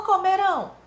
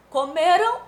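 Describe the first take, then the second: First: "comerão" high and loud, RÃO stressed; stress on last syllable. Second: "Comeram" high and loud, ME stressed; stress on penultimate syllable. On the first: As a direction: punch the final RÃO of "comerão". ("comerão" com o RÃO final forte) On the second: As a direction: punch ME in "Comeram", ending unstressed. ("Comeram" com o ME forte) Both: Shown as a demonstration. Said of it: "a pronúncia é muito importante".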